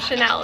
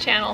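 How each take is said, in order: First: The name sounds like the word 'Chanel'. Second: The name sounds like the word 'channel'. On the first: The speaker calls it wrong. "I said it wrong. It's not Chanel" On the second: The speaker calls it right. "It's Channel Homestead"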